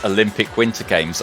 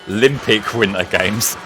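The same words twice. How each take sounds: First: It is said in a calm, ordinary voice. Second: It is said in an excited, announcer-like voice. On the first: "its full title is" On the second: "as the guy pronounces it"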